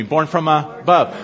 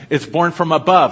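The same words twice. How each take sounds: First: "Born from above" drawn out slowly for the crowd to repeat; slow, deliberate. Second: Said in the usual way. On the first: Shown as a demonstration. Preacher leading his congregation in a slow call-and-response. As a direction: lead the saints through "Born from above", word by word. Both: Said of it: "Everybody say that with me".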